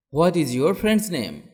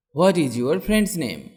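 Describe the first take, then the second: No difference in how they are said.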